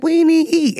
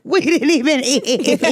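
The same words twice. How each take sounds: First: Loud high mock protest; mock indignant outburst. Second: Slow, high, drawn-out mock whine; slow drawn-out repeat. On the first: Retelling friends shocked at the restaurant check, loud high outburst. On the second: Repeating the crab story punchline, slow and drawn out. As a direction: stretch each word out in disbelief. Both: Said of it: "we was like".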